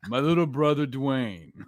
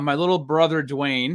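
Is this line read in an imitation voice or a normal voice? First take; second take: imitation; normal. First: It is read in an imitated celebrity voice. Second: It is read in the speaker's ordinary voice.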